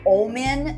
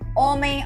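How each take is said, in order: First: It is said more distinctly, as English Omen. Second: It sounds like the Portuguese word homem. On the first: It clearly names the character. The speaker calls it right. "like a little more pronounced" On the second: It sounds like the Portuguese word for man. The speaker calls it wrong. "it can't be like she would in Portuguese"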